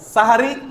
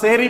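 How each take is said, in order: First: The first syllable is 'sah' with three syllables. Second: The first syllable is 'seh' with a short ending. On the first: It is the form used in the hadith. The speaker calls it right. "শব্দটা হবে কি? সাহারি বা সাহুর।" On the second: It sounds like the word for magic. The speaker calls it wrong. "শব্দটা সেহরি না।"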